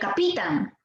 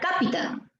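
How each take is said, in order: First: The stress is on the middle syllable. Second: The stress is on the first syllable. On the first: "Si fuera Pi, sería capitán" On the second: "Si fuera K, diría capitán"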